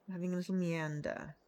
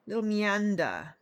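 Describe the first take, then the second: First: Said in the usual way. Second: Slow, louder little meander with a put-on lilt; little meander savoured slowly; drawn-out meander. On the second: Shown as a demonstration.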